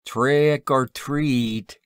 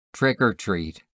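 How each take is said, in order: First: High, drawn-out trick-or-treat cry; chattering hobos. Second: Short, abrupt trick-or-treat reply. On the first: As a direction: hobo trio's slow, high-pitched begging call. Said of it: "chattered a trio of hacking, sniffing hobos". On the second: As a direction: say it abruptly, cutting things short. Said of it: "he said abruptly". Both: A narrator's reading.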